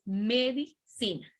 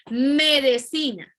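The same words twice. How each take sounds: First: "medicina" said slowly with a clear i; correct medicina. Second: "Medicina" said slowly and louder as "medecina"; vulgar medecina. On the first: Teacher models correct form for students, slow and clear. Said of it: "no es medicina, es medicina". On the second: Teacher voices the wrong form for the class, slow "medecina". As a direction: turn the first i of "Medicina" into an e. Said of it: "no es medicina". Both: Shown as a demonstration.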